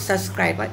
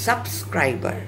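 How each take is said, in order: First: The first syllable is not said like "sub". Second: The first syllable is said like "sub". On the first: The speaker calls it wrong. "It's not সাবস্ক্রাইবার" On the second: The speaker calls it right. "It's সাবস্ক্রাইবার S U B"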